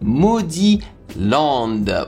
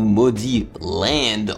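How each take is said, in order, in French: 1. Le nom se prononce avec des sons français. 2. Le nom se prononce avec des sons anglais.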